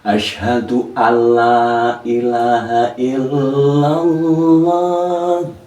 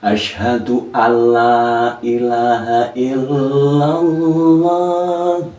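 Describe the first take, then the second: First: The n merges fully into a doubled l. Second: The same.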